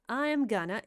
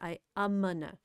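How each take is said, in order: First: Each word is said fully and clearly. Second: The words are contracted and run together. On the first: "сначала он говорит четко" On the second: "он еще больше слепляет"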